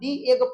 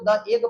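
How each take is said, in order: First: 'The' is said with a long ee vowel. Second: 'The' is said with a short uh vowel. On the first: The speaker calls it right. "दी egg पढ़ना सही है" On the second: The speaker calls it wrong. "द egg पढ़ना क्या हो जाएगा, गलत"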